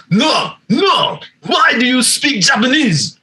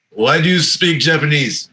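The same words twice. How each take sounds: First: High-pitched, mock-indignant Japanese accent; Miyazaki kind of voice. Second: Lightly imitated Japanese accent. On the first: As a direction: imitate an irate man with a Japanese accent, pitched way up. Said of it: "fucking Miyazaki kind of voice". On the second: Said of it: "In a heavy Japanese accent".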